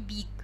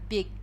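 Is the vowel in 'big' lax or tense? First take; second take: tense; lax. First: The vowel is a tense, sweet Russian-like 'i'. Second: The vowel is a lax, rough, careless 'i'. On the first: The speaker calls it wrong. "то есть не big" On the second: The speaker calls it right. "а big"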